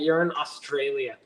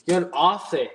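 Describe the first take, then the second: First: Said in the usual way. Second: Put-on "You're in Aussie" in a light, jokey Australian accent; mock Australian accent. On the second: Answering a viewer from Australia, light mock Australian accent. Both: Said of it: "I felt like saying a racist Australian accent".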